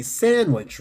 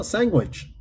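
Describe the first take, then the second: First: Said in the usual way. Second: "sandwich" as SANG-gwitch, pitched up. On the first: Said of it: "You meant to say sandwich". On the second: Retold or imitated. James correcting him in retelling, sandwich as SANG-gwitch. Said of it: "Okay, it's his accent".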